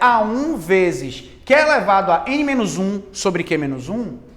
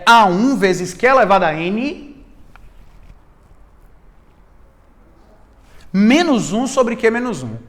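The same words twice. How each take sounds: First: It runs on without a pause before 'menos um'. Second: There is a pause before 'menos um'. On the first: The minus one belongs in the exponent. The speaker calls it wrong. "se você vier com muita sede ao pote falar" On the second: The minus one is applied to the whole power, not the exponent. The speaker calls it right. "essa pausa dramática, rapaz, ela é pedagógica"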